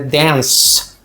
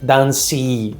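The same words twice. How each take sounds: First: The word ends with a plain s sound. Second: The word ends with an extra vowel after s. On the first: The speaker calls it right. "Como se você lesse D A N S" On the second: The speaker calls it wrong. "você não fala dance"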